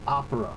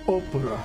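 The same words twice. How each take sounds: First: It is said with a plain English pronunciation. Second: It is said with an Italian-style pronunciation. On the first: The speaker calls it wrong. "You would not be happy if we said opera" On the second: The speaker calls it right. "We had to say opera. ... That's the correct pronunciation"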